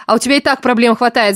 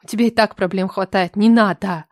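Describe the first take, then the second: First: Loud outburst. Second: Pleading. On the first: Masha pushing Marat away, loud and emphatic. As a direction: fling it at him. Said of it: "взорвалась я". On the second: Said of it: "взмолилась я". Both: A narrator's reading.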